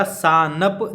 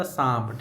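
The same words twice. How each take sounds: First: "सांप" slowly split as saa-nap with a full n; spelling pronunciation. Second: "सांप" as one syllable, nasal saamp; reading pronunciation. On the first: Teacher showing what is written, saa-nap for "सांप". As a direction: sound every written letter of "सांप", n and all. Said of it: "लिखा था सांप". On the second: Teacher showing how it is read, one nasal syllable "सांप". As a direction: fold the n of "सांप" into a nasal vowel before p. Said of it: "लेकिन पढ़ाया था सांप". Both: Shown as a demonstration.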